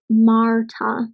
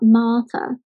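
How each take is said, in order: First: The R sound is clearly pronounced. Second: The R sound is not pronounced. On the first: "I pronounce the R in a much more recognisable way" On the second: "not to pronounce the R sounds"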